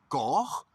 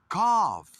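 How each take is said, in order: First: The final sound is not an f. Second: The final sound is an f. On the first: The speaker calls it wrong. "¿Se dice cough? No" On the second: The speaker calls it right. "Esa G H como si fuera una F"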